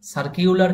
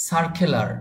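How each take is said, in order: First: সার্কিউলার said with an extra "kiu" glide, the way learners wrongly say it; wrong pronunciation. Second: সার্কুলার said with a plain "ku", no glide; correct pronunciation. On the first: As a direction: demo the mistake "সার্কিউলার" with "kiu". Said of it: "আবার আপনি বলতে যাবেন না সার্কিউলার". (ভুল উচ্চারণ "সার্কিউলার", মাঝে "কিউ") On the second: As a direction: say "সার্কুলার" cleanly as "sar-ku-lar". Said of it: "বলতে যাবেন না সার্কিউলার". (সঠিক উচ্চারণ "সার্কুলার", সোজা "কু" দিয়ে) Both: Shown as a demonstration.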